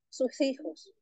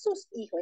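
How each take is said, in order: First: The words run together with an h sound. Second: The two words are said separately. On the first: The speaker calls it right. "todo junto con esa J" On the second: The speaker calls it wrong. "no es sus hijos"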